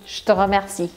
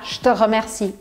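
Both takes have the same delivery.

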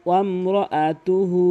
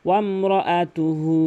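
Both takes have the same delivery.

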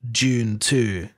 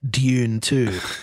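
First: Dune starts with a j-like sound. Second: Dune starts with a plain d sound. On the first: This is the speaker's habitual pronunciation. "If I'm saying it normally" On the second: The speaker is avoiding the habitual pronunciation. "If I'm trying not to say it like that"

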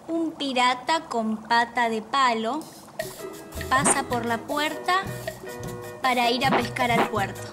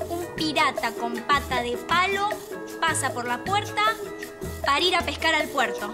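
First: It is said at a normal pace. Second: It is said quickly.

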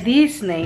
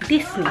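First: It is pronounced with a Spanish reading. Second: It is pronounced with an English sound. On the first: The speaker calls it wrong. "se lee Disney, ¿no? En español" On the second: The speaker calls it right. "pero se pronuncia Disney"

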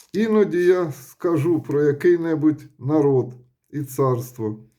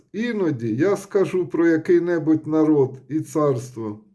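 Both takes have the same delivery.

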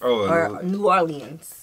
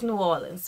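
First: Every syllable of Orleans is fully pronounced. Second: Orleans is shortened, its syllables run together. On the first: The speaker calls it wrong. "not saying New Orleans" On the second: The speaker calls it right. "No, it's New Orleans, baby"

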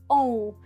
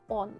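First: The vowel glides toward u without n. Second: The vowel ends with a clear n sound. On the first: "воно при швидкій вимові просто зникає. І в нас виходить еу, оу" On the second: "О з хвостиком вимовляємо як Он"

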